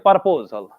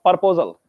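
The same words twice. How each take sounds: First: The first syllable sounds like 'par'. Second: The same.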